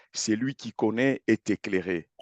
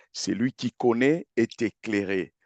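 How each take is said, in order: The two takes are said the same way.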